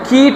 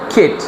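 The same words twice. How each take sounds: First: The vowel is drawn out long. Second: The vowel is clipped short. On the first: The speaker calls it wrong. "এটা কিট বলবো না" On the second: The speaker calls it right. "বরং বলবো কিট"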